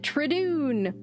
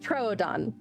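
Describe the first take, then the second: First: The long 'oo' vowel is in the second syllable. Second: The long 'oo' vowel is in the first syllable. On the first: The speaker calls it wrong. "which is not how you pronounce the name of this dinosaur" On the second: The speaker calls it right. "It's Troodon, not Tradoon"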